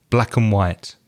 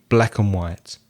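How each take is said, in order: The two takes are said the same way.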